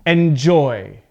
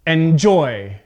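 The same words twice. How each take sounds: First: EnJOY, "enjoy" stressed on its last syllable; light start, strong JOY in "enjoy"; stress on second syllable. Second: ENjoy, "enjoy" stressed at the front; deliberately misplace the stress onto EN in "enjoy"; punched first syllable of "enjoy", JOY falling away. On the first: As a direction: correct model of "enjoy", end-stressed. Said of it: "how we would pronounce this word correctly". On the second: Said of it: "put the stress at the beginning". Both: Shown as a demonstration.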